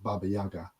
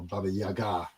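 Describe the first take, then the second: First: The name is said the usual anglicized way. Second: The name is said with Russian-style pronunciation. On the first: This is the commonly known form. The speaker calls it wrong. "most usually known as just Baba Yaga" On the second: This is the authentic original form. The speaker calls it right. "if we were going to be pronouncing it correctly"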